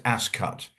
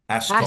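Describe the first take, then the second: First: The second syllable sounds like the word 'cut'. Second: The second syllable does not sound like 'cut'. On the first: The speaker calls it right. "it is like a cut, right? It's ascut, right?" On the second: The speaker calls it wrong. "You do not say ascot"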